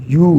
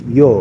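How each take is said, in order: First: "یو" as "yoo", like "you"; English U sound. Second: "یو" as "yo", with an O; sixth vowel sound. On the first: Teacher showing learners the eighth vowel, "یو" as English "you". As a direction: say "یو" like the English letter U. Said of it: "simple جو English میں ہے یو". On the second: Teacher showing learners the sixth Korean vowel, "یو" as "yo". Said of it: "چھٹا جو ہے اس کو یو". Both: Shown as a demonstration.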